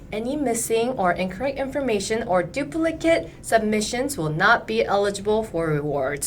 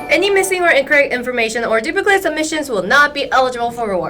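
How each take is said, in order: First: It is read at a slower pace. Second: It is read at a quick pace.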